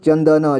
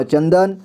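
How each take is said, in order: First: चंदन split as "chan-da-na"; चंदन with final न voiced as "na"; sounded out. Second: Said in the usual way. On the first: Shown as a demonstration. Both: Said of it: "इसे [name] पढ़ेंगे".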